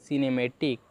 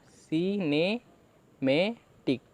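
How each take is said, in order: First: Said in the usual way. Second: Very slow, stretched syllables; teacher drawing the word out syllable by syllable; slow demonstration. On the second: Shown as a demonstration. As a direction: sound the word out slowly for students. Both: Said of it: "तो देखिए क्या बना हमारा".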